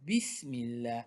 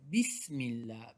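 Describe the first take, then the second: First: The s sound is pressed with force. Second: The same.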